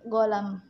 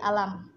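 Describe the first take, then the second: First: The word begins with a hard g sound. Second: The word begins with a vowel sound. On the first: This is how the word sounds in Saudi Arabic. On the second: This is how the word sounds in Egyptian Arabic. "kalau di bahasa apa Mesir j- jadi alam"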